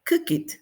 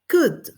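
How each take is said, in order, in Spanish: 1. La palabra termina con una sílaba extra 'id'. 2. La palabra termina en sonido D. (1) "no lo van a entender" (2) "La gente más o menos entiende"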